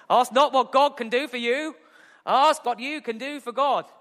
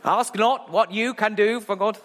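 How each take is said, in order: First: Higher, grand Kennedy delivery of the corrected line; hammed-up Boston oratory, second try; JFK impression. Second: Botched JFK line. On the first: Preacher redoing the Kennedy quote after fumbling it. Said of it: "It's not a bad J F K". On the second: Retold or imitated. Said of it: "No, no, I've done it wrong".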